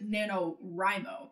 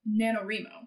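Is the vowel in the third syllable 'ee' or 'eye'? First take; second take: eye; ee. First: The third syllable has an 'eye' vowel. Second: The third syllable has an 'ee' vowel. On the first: The speaker calls it wrong. "because it's like writing, rhymo" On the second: The speaker calls it right. "I pronounce it"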